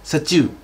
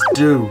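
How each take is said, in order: First: It is said with a Japanese pronunciation. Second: It is said with an English pronunciation. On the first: "ถ้าจะพยายามพูดเป็นสำเนียงภาษาญี่ปุ่นนะครับถ้าภาษาญี่ปุ่นจะออกเสียงว่า" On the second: "ฝรั่งเรียก"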